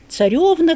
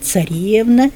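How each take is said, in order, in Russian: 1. Ударный гласный произносится как 'yo'. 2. Ударный гласный произносится как 'e'. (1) "в диалектах записано ... это по-русски" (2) "в литературном языке ... по-церковнославянски"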